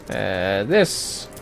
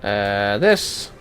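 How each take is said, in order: Both takes have the same delivery.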